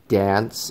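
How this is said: It is said with an American accent. "will pronounce words the American way when they sing"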